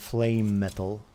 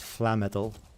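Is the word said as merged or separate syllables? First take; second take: separate; merged. First: Both words are said separately and fully. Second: The two words run together into one word. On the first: The speaker calls it right. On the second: The speaker calls it wrong.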